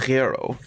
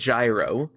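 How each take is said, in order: First: The word starts with a throaty r-like sound. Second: The word starts with a j sound. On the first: The speaker calls it right. "a gyro. ... it's a r, r" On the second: The speaker calls it wrong. "not a j like gyro"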